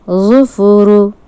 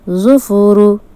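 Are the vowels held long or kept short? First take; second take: short; short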